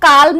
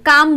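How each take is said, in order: First: An L sound is pronounced before the M. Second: No L sound is pronounced before the M. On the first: The speaker calls it wrong. "इसको काल्म नहीं बोलेंगे" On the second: The speaker calls it right. "काम बोलेंगे"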